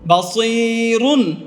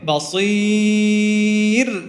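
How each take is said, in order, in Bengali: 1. শব্দটি অতিরিক্ত ধ্বনি 'un' দিয়ে শেষ হয়। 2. শব্দটি ব্যঞ্জন 'r' দিয়ে শেষ হয়।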